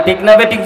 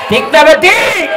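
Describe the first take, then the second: First: Said in the usual way. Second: High, loud rallying shout; louder crowd prompt. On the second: Real, not acted. (জোরে হাঁক দিয়ে জনতাকে সাড়া দিতে বলা) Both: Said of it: "জোরে কও".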